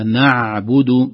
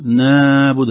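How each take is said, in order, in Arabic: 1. صوت العين بين الرخاوة والشدة. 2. صوت العين يُمدّ برخاوة زائدة. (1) "بين بين بين، هكذا نعبد" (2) "هذا أبدا رخاوة زائدة"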